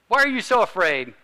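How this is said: It sounds like a scolding complaint.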